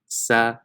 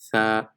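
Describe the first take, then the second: First: The tongue stays inside, giving an 's' sound. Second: The tongue tip between the teeth gives a 'th' sound. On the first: The speaker calls it wrong. "It's not sa, because if you pronounce it sa, like let's say the English S" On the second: The speaker calls it right. "it has to come out more to get that tha sound"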